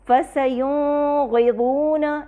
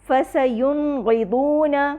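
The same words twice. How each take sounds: First: The n sound is blurred into the next sound. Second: The n sound is pronounced clearly and fully. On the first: The speaker calls it wrong. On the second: The speaker calls it right.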